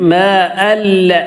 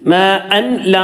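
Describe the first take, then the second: First: The n merges fully into a doubled l. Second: An n sound is heard before the l. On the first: The speaker calls it right. "നേരെ കൂട്ടി യോജിപ്പിക്കുക" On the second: The speaker calls it wrong. "എന്നല്ല"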